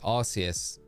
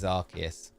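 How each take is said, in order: First: The first syllable sounds like 'arse'. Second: The first syllable sounds like 'arc'. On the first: The speaker calls it wrong. "when I used to always pronounce it Arceus" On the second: The speaker calls it right. "But it is Arceus"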